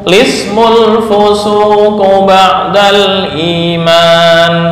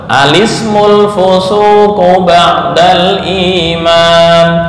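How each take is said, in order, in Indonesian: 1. Dimulai langsung dengan suku kata 'li'. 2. Dimulai dengan vokal 'a' sebelum huruf l. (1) "menghilangkan hamzah wasal dan memulai dengan lam yang dibaca kasrah" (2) "hamzah dibaca fathah diikuti lam"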